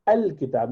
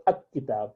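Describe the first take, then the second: First: Al-Kitab with the lam clearly sounded; correct form. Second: Ak-Kitab with the lam dropped and the k doubled; wrong form. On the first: Teacher contrasting a moon letter. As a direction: keep the l in Al-Kitab. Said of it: "you would say". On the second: Teacher showing the mistake to avoid. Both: Shown as a demonstration.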